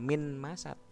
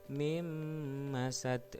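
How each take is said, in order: First: The n is pronounced clearly before the m. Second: The n merges into m with a held nasal hum. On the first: The speaker calls it wrong. "Nah, itu salah cara membacanya" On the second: The speaker calls it right. "Jadi dengung dulu karena dia biguna dengan dengung"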